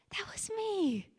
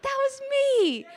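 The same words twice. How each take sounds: First: Hushed, breathy whisper; barely voiced, tender recognition. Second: Much higher, louder, slow and breaking with emotion; tearful, overcome high break; voice cracking. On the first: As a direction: whisper it to yourself. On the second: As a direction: let the voice crack as it rises. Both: Real, not acted. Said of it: "my voice still cracks".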